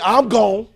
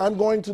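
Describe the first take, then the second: First: The phrase is clipped into a short reduced form. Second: Each word of the phrase is said in full. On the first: The speaker calls it right. "I want to say, I'm gone" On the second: The speaker calls it wrong. "don't say, I'm going to none of that"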